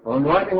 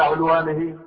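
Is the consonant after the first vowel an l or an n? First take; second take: n; l. First: The word is said with an n sound. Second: The word is said with an l sound. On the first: "بالنون" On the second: "باللام"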